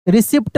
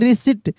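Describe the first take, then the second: First: A p sound is heard before the final t. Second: No p sound is heard before the final t. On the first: The speaker calls it wrong. "रिसिप्ट नहीं" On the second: The speaker calls it right. "यहाँ पे P silent है"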